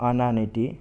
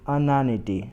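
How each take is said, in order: No difference in how they are said.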